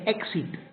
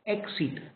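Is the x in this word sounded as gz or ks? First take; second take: ks; ks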